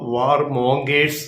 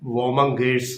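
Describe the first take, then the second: First: The middle syllable sounds like 'mon', 'war' is separate. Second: The middle syllable sounds like 'mun', run together. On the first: The speaker calls it wrong. "നമ്മൾ മലയാളത്തിൽ അത് ചിലപ്പോൾ വാർ മോങ്കേഴ്സ് എന്ന് പറയുമെങ്കിലും" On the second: The speaker calls it right. "അതിന്റെ ശരിക്കുള്ള ഉച്ചാരണം വോമങ്കേഴ്സ് എന്നാണ്"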